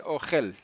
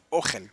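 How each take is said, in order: First: Said in the usual way. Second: "ogel" stressed on its first vowel, the O. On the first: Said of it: "ogel más bien". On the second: Shown as a demonstration. Teacher correcting the Hebrew word, "ogel" with stress on the O. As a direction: put the accent on the O of "ogel". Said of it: "con acento en la O".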